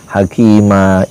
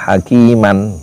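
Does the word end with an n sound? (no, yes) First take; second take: no; yes. First: The word ends in a vowel, no n. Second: The word ends with an n sound. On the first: "dibacanya hakima" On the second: "tulisannya kan hakiman"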